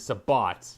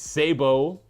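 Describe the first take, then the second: First: The final T is sounded. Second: The final T is silent. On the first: This is the English, Dutch and German pronunciation. "because that's where the word comes from" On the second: This is the French pronunciation. "which is the French way"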